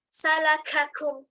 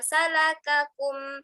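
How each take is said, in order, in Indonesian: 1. Bunyi k membawa embusan napas yang kuat. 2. Bunyi k tegas dengan sedikit embusan napas. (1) "Itu berlebihan sifat hamasnya" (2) "Cukup membacanya dengan"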